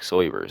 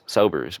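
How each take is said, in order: First: The name starts with a different vowel. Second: The name starts like the word 'sober'. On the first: The speaker calls it right. "but it's like Soibers" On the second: The speaker calls it wrong. "It looks like sober"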